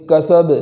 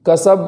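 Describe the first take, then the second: First: کسب ending with a bouncing echo on ب; qalqala on ba. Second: کسب with a flat dead ب; wrong flat stop; no qalqala. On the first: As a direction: let the ب in کسب rebound. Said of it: "اس طریقے سے پڑھیں گے". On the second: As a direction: stop the ب in کسب without echo. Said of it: "کسب ایسا نہیں پڑھیں گے". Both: Shown as a demonstration.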